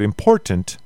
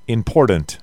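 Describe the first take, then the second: First: The word is said without a d sound. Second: The word is said with a d sound. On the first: The speaker calls it right. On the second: The speaker calls it wrong.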